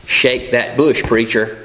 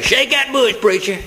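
First: Said in the usual way. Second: High-pitched mock holler to the preacher; congregant's shout. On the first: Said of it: "had heard shouted was". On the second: Somebody in the service egging the preacher on, imitated shout. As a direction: call it out high like an excited churchgoer. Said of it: "you hear somebody say".

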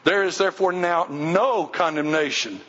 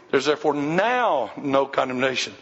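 First: No stressed and falling; no is the peak of the line. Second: Now stressed and falling; now is the peak of the line. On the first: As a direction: hit the word no in "now no condemnation". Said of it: "put emphasis on the word no". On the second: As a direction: press the word now before no condemnation. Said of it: "put emphasis on the word now". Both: Shown as a demonstration.

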